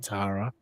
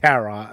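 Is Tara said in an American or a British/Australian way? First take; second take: British/Australian; American. First: The name is said with a British/Australian pronunciation. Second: The name is said with an American pronunciation. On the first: "Australians and I, I think Brits say" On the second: "as Americans say"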